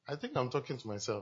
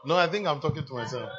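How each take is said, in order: First: Quiet aside with a laugh, said half to himself; chuckling aside. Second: Louder, pressing the point home; loud repeat. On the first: Preacher muses to the congregation, chuckling softly. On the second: Preacher repeats himself to the congregation, shouting. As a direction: call it out loud to the whole room. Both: Real, not acted.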